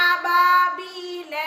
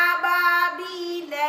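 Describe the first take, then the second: Both takes have the same delivery.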